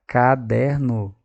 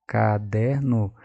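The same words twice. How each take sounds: First: Caderno spoken slowly, syllable by syllable; syllable-timed reading. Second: Said in the usual way. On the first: Shown as a demonstration. Teacher sounding out a word for the class, slow syllables. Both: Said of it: "Percebi sílaba".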